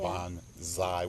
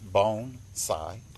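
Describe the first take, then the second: First: The middle consonant is a z sound. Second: The middle consonant is an s sound. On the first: The speaker calls it wrong. "bonsai with a Z" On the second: The speaker calls it right. "it's pronounced bone-sai"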